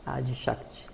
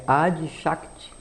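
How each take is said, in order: First: Adi Shakti much softer, falling away at the end; soft repeat. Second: Adi Shakti drawn out slowly, a mantra-like pitch lift on Adi; slow intoned name. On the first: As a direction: let Adi Shakti drop to a soft echo. Repeats the name softly. (Adi Shakti repetido baixinho) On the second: Naming the first Shakti. (Adi Shakti entoado devagar) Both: Shown as a demonstration.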